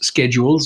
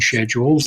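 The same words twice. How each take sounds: First: It is said in an American way. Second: It is said in the speaker's Canadian way.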